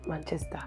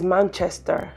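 First: Manchester said softly as the faulty version; mimicked mispronunciation. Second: Manchester said firmly with a clear CH; corrected pronunciation. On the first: Captive quoting captor's mistake, Manchester mispronounced. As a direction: mimic a wrongly pronounced Manchester, thrown away quietly. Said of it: "not Manchester". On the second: Shown as a demonstration. Captive correcting her captor's lyrics, Manchester pronounced properly. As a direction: stress Manchester as the correct form. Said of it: "It is Manchester, not Manchester".

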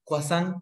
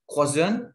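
First: Croissant said KWA-son, the English way; anglicised croissant; croissant with an English accent. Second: Croissant drawn out as kwa-SAHN, slow; slow French croissant; croissant said slowly the French way. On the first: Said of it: "croissant in English". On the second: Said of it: "Croissant in French". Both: Shown as a demonstration.

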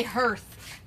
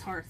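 First: "hearth" said as "herth"; earth-like vowel. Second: "hearth" said as "harth"; ar vowel. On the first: Reading what the box says, "hearth" pronounced "herth". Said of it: "like earth". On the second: Quoting people who corrected them, "hearth" pronounced "harth". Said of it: "But people say". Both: Shown as a demonstration.

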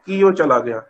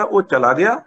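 First: Said in the usual way. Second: ਉਹ ਚਲਾ ਗਿਆ with ਗਿਆ swept upward; question intonation. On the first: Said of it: "ਕੀ ਲਾਉਣ ਦੀ ਲੋੜ". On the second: Shown as a demonstration. Teacher showing no question word is needed, rising question on ਗਿਆ. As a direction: turn it into a question by raising ਗਿਆ. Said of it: "ਸਵਾਲ ਵੀ ਪੁੱਛਣਾ ਹੋਵੇ".

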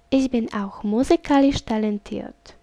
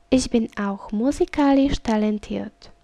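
Both takes have the same delivery.

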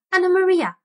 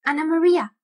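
First: Much higher, louder squeaked name; shrill squeaking rat call. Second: High, louder squeak of a name; squeaking rat voice. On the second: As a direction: call her in a squeaky rat voice. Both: Acted. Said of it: "squeaked the rat".

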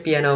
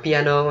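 First: "piano" in the English way, pee-AN-oh; correct pronunciation. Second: "piano" in the Vietnamese loanword way, pi-a-no; wrong pronunciation. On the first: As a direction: say "piano" with stressed middle AN. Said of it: "mình đọc là piano". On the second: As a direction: say "piano" evenly, without English stress. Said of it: "không phải mình đọc piano". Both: Shown as a demonstration.

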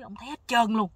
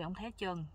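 First: Roep het hard uit, een stuk luider; luid uitgeroepen. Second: Herhaal het zachter, bijna voor jezelf; zacht herhaald. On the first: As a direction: verbijsterd uitgeroepen, luider dan de rest. Narrator retells what the man saw. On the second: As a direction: een zachtere, stille herhaling. Narrator repeats the same line. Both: Retold or imitated.

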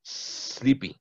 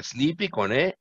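First: Sleepy whispered with a long hissed s; hissed pronunciation. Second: Sleepy said with an e in front, like esleepy; wrong pronunciation. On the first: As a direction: hiss the s of Sleepy. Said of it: "Pero sí es sleepy". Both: Shown as a demonstration.

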